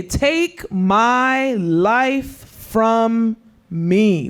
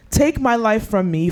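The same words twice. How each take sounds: First: Dragged-out plea. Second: Said in the usual way. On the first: Retold or imitated. Preacher voicing Jonah to the youth, slow pleading. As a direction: take my life from me, stretched very slowly.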